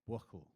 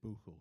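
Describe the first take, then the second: First: The middle consonant is a hard k sound. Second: The middle consonant is a breathy ch sound.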